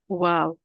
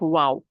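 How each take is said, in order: First: The word is said light and soft. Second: The word is said deep and forceful. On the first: The speaker calls it right. "It's wow" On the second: The speaker calls it wrong. "Don't make it stronger and don't make it deeper. It's not wow"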